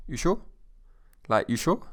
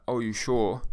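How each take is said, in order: First: Short, rising "you sure?"; teasing little challenge; goading. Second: Plain questioning "you sure"; the wrong, doubtful take; doubting. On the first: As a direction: nudge a mate into it. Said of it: "listen to my tone of voice". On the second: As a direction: ask as if you really doubt them. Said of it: "I'm not saying it as in". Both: Shown as a demonstration.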